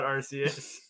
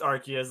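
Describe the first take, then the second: First: The first syllable sounds like 'arse'. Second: The first syllable does not sound like 'arse'. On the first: This way sounds like British slang for a butt. The speaker calls it wrong. "we can't call it Arceus" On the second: This is the official way to say it. The speaker calls it right. "it's Arceus"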